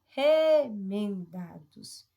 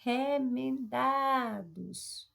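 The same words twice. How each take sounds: First: "Remendados" very slow, opening RE loud and long; stress on RE. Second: "Remendados" drawn out very slowly, weight on DA; stress on DA. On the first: Teacher identifying a tonic syllable, RE in "Remendados" stressed. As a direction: hit and hold RE at the start of "Remendados". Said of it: "o re como sílaba". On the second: Teacher quizzing the class, DA in "Remendados" stressed. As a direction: stretch every syllable of "Remendados", swelling on DA. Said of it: "E aí, gente?". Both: Shown as a demonstration.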